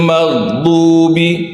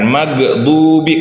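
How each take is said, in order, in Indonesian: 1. Bunyi gh halus, tidak memantul. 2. Bunyi gh memantul seperti G keras. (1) "tidak boleh memantul" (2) "bukan maghdubi. Kalau kita G, posisi di huruf G, maka dia akan memantul"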